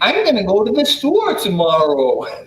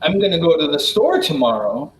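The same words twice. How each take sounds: First: The melody goes up and down, with long vowels. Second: The melody is plain, with ordinary short vowels. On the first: "they speak in a kind of a sing-song way, with like up and down, and then they have long vowels" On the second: "instead of saying"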